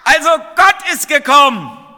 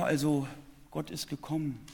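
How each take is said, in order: First: It is said loudly and clearly. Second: It is said quietly and hesitantly. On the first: The speaker calls it right. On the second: The speaker calls it wrong.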